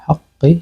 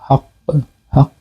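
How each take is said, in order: First: The word continues into a vowel without stopping. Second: The word ends on a bounced stop at the end. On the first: "ওয়াকফ না করে পড়ছিলাম" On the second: "ওয়াকফ করি তাহলে কাফে কলকলা করব"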